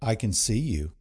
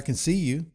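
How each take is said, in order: First: It sounds stern, warning and reproachful. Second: It sounds warm, cheerful and encouraging. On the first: The child has been caught misbehaving. "when they're secretly pinching their sibling's neck" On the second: The child is being watched with pride. "when they're out on the baseball field"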